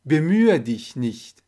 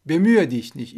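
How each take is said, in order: First: Slow, syllable by syllable, each sound clear; slow model read. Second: Said in the usual way. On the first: Shown as a demonstration. Teacher modelling Bemühe dich nicht for Persian learners, slow. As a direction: spell it out slowly for the learners. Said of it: "teacher models phrase twice". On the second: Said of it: "teacher repeats at normal speed".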